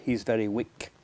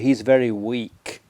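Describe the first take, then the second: First: The last word has a short i vowel. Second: The last word has a long ee vowel. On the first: The speaker calls it wrong. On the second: The speaker calls it right. "we need a the, the long E sound"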